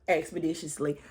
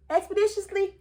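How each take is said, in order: First: Low, soft, falling expeditiously; flat confirming echo. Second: High questioning squeak on expeditiously; incredulous echo. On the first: Vlogger confirming the word, low and deadpan. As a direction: settle expeditiously down low and quiet. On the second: Vlogger echoing Drew's word in disbelief. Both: Shown as a demonstration.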